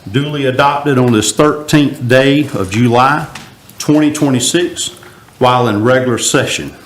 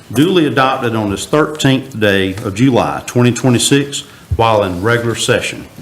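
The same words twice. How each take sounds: Both takes have the same delivery.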